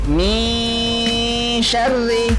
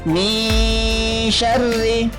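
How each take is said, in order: The two takes are said the same way.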